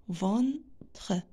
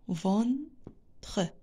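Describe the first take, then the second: Both takes have the same delivery.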